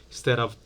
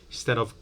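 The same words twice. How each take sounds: Both takes have the same delivery.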